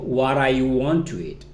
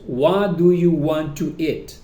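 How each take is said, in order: First: The first words are reduced and run together. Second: Every word is said fully and separately.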